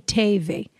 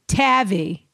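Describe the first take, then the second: First: The name rhymes with gravy. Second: The name does not rhyme with gravy. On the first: The speaker calls it right. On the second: The speaker calls it wrong.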